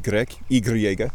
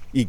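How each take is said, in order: First: Y said as "ee-gree-EH-gah"; Spanish name. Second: First Y said as "ee-GREK"; French name. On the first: Listing examples from Spanish, Y as ee-gree-EH-gah. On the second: Listing examples from French, Y as ee-GREK. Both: Shown as a demonstration. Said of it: "French and Spanish".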